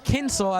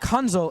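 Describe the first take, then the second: First: The name rhymes with pencil. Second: The name does not rhyme with pencil. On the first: The speaker calls it right. "as in a Kensel, like a pencil" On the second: The speaker calls it wrong. "it's not Kunzel"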